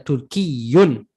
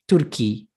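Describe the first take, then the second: First: The word ends with a full -iyun ending. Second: The word ends short in a plain -i. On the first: It is the formal classical form. "the proper way would be to say" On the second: It is the casual colloquial form. "But you can say Ana Turki ... that would be like colloquial"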